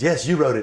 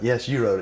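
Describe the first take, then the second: First: Higher, louder agreement; group chiming in at the guru; crowd chorus. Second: Said in the usual way. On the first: Retold or imitated. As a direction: cheer it back. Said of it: "everybody goes". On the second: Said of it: "And I went".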